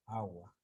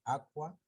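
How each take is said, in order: First: "agua", the k softened away to g; evolved Spanish pronunciation. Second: "aqua" with a hard k sound before wa; raised "aqua", clearly sounding the k; Latin pronunciation. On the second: Teacher showing the Latin root, "aqua" said with a k. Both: Shown as a demonstration. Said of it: "¿Cómo evolucionó el mismo sonido?".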